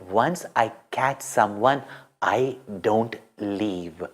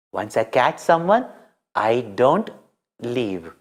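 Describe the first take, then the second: First: Low, soft and slow, steady resolve; quiet determined promise; hushed, unshakable vow; calm firm saying. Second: Said in the usual way. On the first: A narrator's reading. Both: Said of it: "as the saying".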